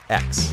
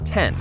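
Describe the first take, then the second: First: The name is pronounced as the letter ex. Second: The name is pronounced as the number ten. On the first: The speaker calls it wrong. "Not X" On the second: The speaker calls it right. "Say it with us"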